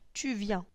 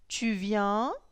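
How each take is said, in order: First: It is said with statement intonation. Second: It is said with question intonation. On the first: It states a fact. "Nous avons la phrase tu viens" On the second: It asks a question. "on va changer l'intonation"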